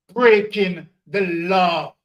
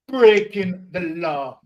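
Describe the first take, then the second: First: Slow, loud, each word hammered; louder and slower, hitting breaking; emphatic repetition. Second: Slow and loud, breaking punched; echoing the first take with the same weight; emphatic repetition. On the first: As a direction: pound out breaking the law. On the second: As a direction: drive it home a second time. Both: Real, not acted. Emphatic rant about companies.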